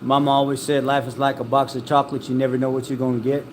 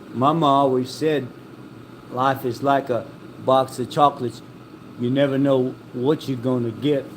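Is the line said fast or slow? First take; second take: fast; slow. First: The line is said quickly. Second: The line is said slowly. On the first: The speaker calls it wrong. "people always say it too damn fast" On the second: The speaker calls it right. "he never says it that fast"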